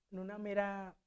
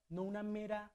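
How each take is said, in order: Both takes have the same delivery.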